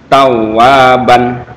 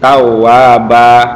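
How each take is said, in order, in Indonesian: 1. Kata itu berakhir dengan a pendek dan n. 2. Kata itu berakhir dengan a panjang, tanpa n.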